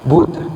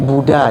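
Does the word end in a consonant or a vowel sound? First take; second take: consonant; vowel. First: The word ends on a consonant, no final vowel. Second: The word ends with a final vowel sound.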